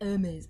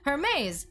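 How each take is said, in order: First: The word begins with no H sound. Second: The word begins with an audible H sound. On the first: The speaker calls it right. "No, it's like Hermes" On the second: The speaker calls it wrong. "I'm going to read it as Hermes"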